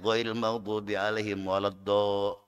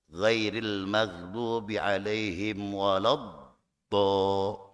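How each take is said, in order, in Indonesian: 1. Konsonan ganda itu dibaca pendek, dengan satu ketukan. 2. Konsonan ganda itu dibaca panjang, dengan dua ketukan. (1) "kurang, enggak sempurna" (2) "Itu ada dua dua gerakan. Tek tek. Sebab itu apa? Ada tasdidnya"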